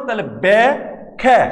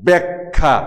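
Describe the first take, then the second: First: ব্যা-খ্যা slowly split into two separate syllables; syllables pulled apart. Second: ব্যাখ্যা said as one word with a doubled kh, falling; natural pronunciation. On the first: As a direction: say ব্যা-খ্যা with each sound apart, slow. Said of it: "প্রত্যেকটা ধ্বনি যদি তোমরা আলাদা উচ্চারণ করো". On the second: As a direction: say ব্যাখ্যা smoothly as it is really spoken. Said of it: "এই শব্দটাকে যখন আমরা উচ্চারণ করতেছি". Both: Shown as a demonstration.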